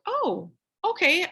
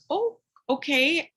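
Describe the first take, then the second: First: Slow, high drawn-out oh okay; a mildly stunned, drawn-out oh okay; taken aback. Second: Slow, rising, drawn-out oh okay; a mildly stunned oh okay that lifts at the end; taken aback. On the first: Retelling her reaction to the complaint, drawn out and taken aback. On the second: Retelling her reaction to the mom's flat refusal, drawn out and taken aback. Mom flatly refuses to mask kids. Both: Retold or imitated.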